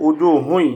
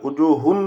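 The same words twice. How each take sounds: First: উজুহুন ending in nasal "hui"; merged tanween with ghunnah. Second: উজুহুন ending in a clear "hun"; unmerged tanween. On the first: Teacher showing what we will say, merged with ghunnah. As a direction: glide from উজুহুন's last vowel into a nasal y. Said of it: "আমরা বলবো". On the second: Teacher showing what not to say, unmerged tanween. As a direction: keep the final n of উজুহুন, no y-glide. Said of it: "না বলে". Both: Shown as a demonstration.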